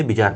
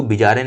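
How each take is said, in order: First: बिजार ending on the r, no final vowel; correct pronunciation. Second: बिजारे with an extra -e on the end; wrong pronunciation. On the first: Teacher corrects students' reading to बिजार, pronounced without final -e. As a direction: say बिजार, closing firmly on "aar". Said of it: "बिजार पढ़ते हैं". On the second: Teacher shows students the misreading बिजारे, mispronounced with final -e. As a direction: say बिजारे, ending in an open "ay" sound. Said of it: "इसको बिजारे नहीं पढ़ते". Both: Shown as a demonstration.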